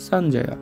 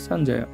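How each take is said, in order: The two takes are said the same way.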